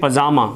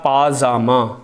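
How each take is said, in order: First: The first vowel is short. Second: The first vowel is long. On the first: The speaker calls it wrong. "हम बोलते हैं पजामा" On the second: The speaker calls it right. "शब्द होता है पाजामा"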